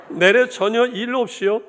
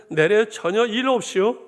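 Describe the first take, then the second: First: Much higher, louder Hamgyeong dialect, 내래 stressed, no laugh. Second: Laughing through 내래 in a higher, louder mock Hamgyeong dialect; 내래 전혀 일 없이요 in Hamgyeong dialect, breaking into a laugh. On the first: Retold or imitated. Pastor repeats the punchline to the church in a loud Hamgyeong dialect. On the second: Pastor amuses the church in Hamgyeong dialect, laughing. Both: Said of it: "함경도 버전 하나 더 할까요".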